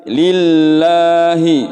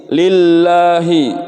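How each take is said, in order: Both takes have the same delivery.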